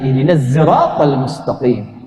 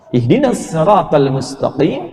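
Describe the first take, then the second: First: Sirat begins with a z-like sound. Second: Sirat begins with a plain s sound.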